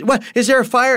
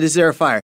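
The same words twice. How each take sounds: First: High, alarmed half-asleep question; jolted from sleep, fearing a fire; startled wake-up. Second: Said in the usual way. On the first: Retold or imitated. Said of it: "She goes". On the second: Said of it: "the first thing he said".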